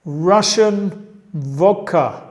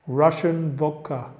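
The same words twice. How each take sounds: First: Russian vodka said slowly and loudly, stress on Russian; teacher modelling Russian vodka; slow model phrase. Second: Said in the usual way. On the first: Shown as a demonstration. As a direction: drill it slowly and loudly for learners. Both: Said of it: "Vamos a seguir".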